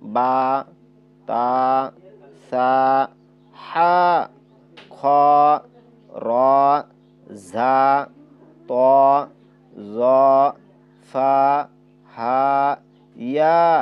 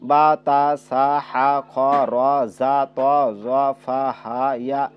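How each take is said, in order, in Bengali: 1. প্রতিটি হরফের স্বরকে এক মাত্রা টেনে পড়তে হবে। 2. প্রতিটি হরফের স্বর লম্বা না করে ছোট করে পড়তে হবে। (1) "এভাবে হবে" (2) "এটা সহি উচ্চারণ হইল না"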